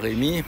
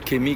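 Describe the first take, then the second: First: The name begins with an R sound. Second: The name begins with a K sound. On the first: The speaker calls it right. "quand vous dites euh, Robert, Rémi" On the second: The speaker calls it wrong. "ils vont dire Kémy"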